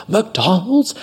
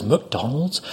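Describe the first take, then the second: First: High-pitched, outraged MCDONALD'S with rising end; mock outrage. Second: Quiet, incredulous question; mock disbelief. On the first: Angry customer repeating waiter's fast-food job, outraged. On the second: Angry customer hearing of waiter's fast-food job, quietly incredulous. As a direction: query MCDONALD'S softly, as if misheard. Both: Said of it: "she got mad at me".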